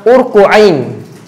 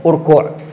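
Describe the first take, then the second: First: The word ends with an extra 'ain' syllable. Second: The word ends without an extra 'ain' syllable. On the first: The speaker calls it wrong. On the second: The speaker calls it right.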